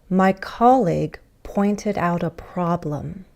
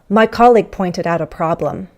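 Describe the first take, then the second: First: It is spoken slowly and carefully. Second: It is spoken quickly with linked words.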